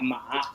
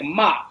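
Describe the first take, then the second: First: It is said with the tone meaning horse. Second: It is said with the tone of a swear word. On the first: The word means a horse. "I'll be talking about a horse" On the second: The word is a swear word. "maybe I just you know cussed you out"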